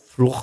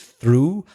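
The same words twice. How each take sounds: First: The word is sounded out as it is spelled. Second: The word is said as one English syllable. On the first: The speaker calls it wrong. "and not through" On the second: The speaker calls it right. "pour is through"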